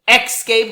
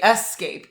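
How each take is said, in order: First: The word starts with an 'ex' sound. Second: The word starts with an 'es' sound. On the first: The speaker calls it wrong. "escape like E X" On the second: The speaker calls it right. "but say escape, E S"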